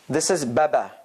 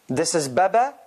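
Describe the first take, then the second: The two takes are said the same way.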